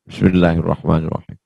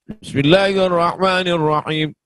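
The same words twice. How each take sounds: First: The phrase is said quietly, almost inaudibly. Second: The phrase is said clearly and aloud. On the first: The opening formula is recited inaudibly. "bismillahnya sir" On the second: The opening formula is recited audibly. "bismillah jahar"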